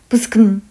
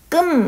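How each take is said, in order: First: It begins with a quickly spoken consonant cluster. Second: It begins with a single tense consonant. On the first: "이렇게 빨리 발음을 부스금 이렇게 했을 것이다" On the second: "된소리로 그냥 지금처럼 끔 뭐 이런 식으로 발음이 됐을 것이다"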